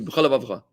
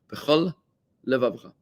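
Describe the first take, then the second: First: The two words are run together quickly. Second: The two words are kept separate.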